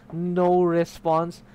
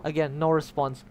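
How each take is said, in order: First: "No response" stretched out slowly and loudly; emphatic repetition. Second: Said in the usual way. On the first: Shown as a demonstration. Player stressing that every room was empty, "No response" slow and loud. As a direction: draw out each word of "No response" with force.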